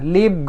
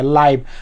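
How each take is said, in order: First: The vowel sounds like 'ee'. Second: The vowel sounds like 'eye'. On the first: The speaker calls it wrong. "लीव गलत pronunciation है" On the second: The speaker calls it right. "इसको आई ही पढ़ेंगे"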